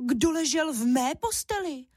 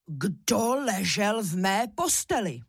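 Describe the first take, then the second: First: Higher, cross mother bear; angry mama bear. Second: Slow, a touch of a big papa bear; bear roar. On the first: Mama bear finding her bed slept in, higher cross scolding. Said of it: "zlobila se Máša hlasem medvědí maminky". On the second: Papa bear finding his bed slept in, slow mild bear roar. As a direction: mildly roar it, drawn out. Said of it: "zařval medvědí tatínek Ivan silným medvědím hlasem". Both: A narrator's reading.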